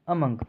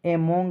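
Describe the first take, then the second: First: It begins with a weak 'uh' vowel. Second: It begins with a clear 'e' vowel. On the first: The speaker calls it right. "इसका सही pronunciation क्या है अमंग" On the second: The speaker calls it wrong. "एमोंग नहीं पढ़ेंगे"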